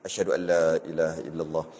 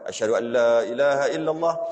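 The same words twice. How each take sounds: First: It is said quietly, barely audible. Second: It is said loudly, projected outward.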